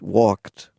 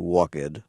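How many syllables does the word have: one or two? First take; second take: one; two. First: The -ed vowel is dropped, giving one syllable. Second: The -ed vowel is pronounced, giving two syllables. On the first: The speaker calls it right. "So supposed, walked" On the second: The speaker calls it wrong. "We don't say walked"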